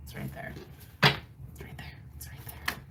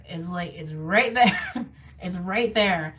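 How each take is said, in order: First: Soft repeated whisper; whispered insistence. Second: Drawn out, slow, each word pressed; slow emphatic insistence. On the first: Reader whispers to water signs that it's right there. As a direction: breathe it out under the voice. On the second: Reader tells water signs it's there, slow and emphatic. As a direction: lean hard on right there, slowly. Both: Real, not acted.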